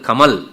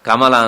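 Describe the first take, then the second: First: The word ends with a consonant, vowel dropped. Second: The word ends with a final vowel. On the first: The speaker calls it wrong. "ಎಲ್ಲ ಕಡೆಗೂ ವ್ಯಂಜನ" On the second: The speaker calls it right. "ಕೊನೆಯಲ್ಲಿ ಸ್ವರ ಇದ್ದೇ ಇರ್ತದೆ"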